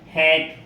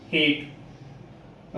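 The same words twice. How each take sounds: First: हैट with an open, firm a; clear hat. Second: हेट breathed out, lower and softer; softly whispered hate. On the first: Teacher models हैट for the students, firm. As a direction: say हैट fully and firmly. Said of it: "इसको बोलेंगे हैट". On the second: Teacher contrasts हेट with हैट, whispered. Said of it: "इसको softly बोलेंगे". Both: Shown as a demonstration.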